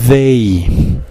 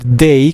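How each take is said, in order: First: It begins with a voiced TH sound. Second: It begins with a plain D sound. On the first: The speaker calls it right. "pueden poner la punta de su lengua entre sus dientes" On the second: The speaker calls it wrong. "No vayan a decir day como una D normal"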